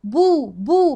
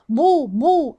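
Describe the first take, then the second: First: Louder "بو" with a thin, clear b; light baa. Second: Louder "بو" with a thickened b; heavy baa. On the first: Teacher drills the syllable, crisp and light. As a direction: push out "بو" without heaviness. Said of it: "ما ينفعش أقول إيه؟". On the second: Teacher shows the over-heavy mistake, thickened. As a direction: make "بو" heavy and full in the mouth. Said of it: "أفخمها، غلط". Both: Shown as a demonstration.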